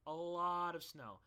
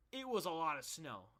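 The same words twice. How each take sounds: First: "lot" drawn out slow and loud; slow, insistent weight on "lot"; stress on lot. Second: Said in the usual way. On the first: Real, not acted. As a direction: stretch "lot" to stress the amount. Repeats slowly for emphasis.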